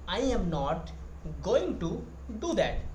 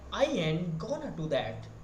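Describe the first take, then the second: First: Every word is said fully and clearly. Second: The t is dropped and going to becomes gonna. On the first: "I am not" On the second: "they are saying that"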